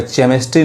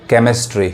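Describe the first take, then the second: First: केमिस्ट्री misread with "ch" as in chair; wrong CH reading. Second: केमिस्ट्री opening on a hard "k"; correct K sound. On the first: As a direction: say केमिस्ट्री wrongly as "CHEM-istry". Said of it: "केमिस्ट्री नहीं पढ़ेंगे". (केमिस्ट्री को गलती से "चेमिस्ट्री" पढ़ें) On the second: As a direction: say केमिस्ट्री as "KEM-istry", CH read as K. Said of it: "क्या पढ़ेंगे?". (केमिस्ट्री में "क" की सही आवाज़) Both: Shown as a demonstration.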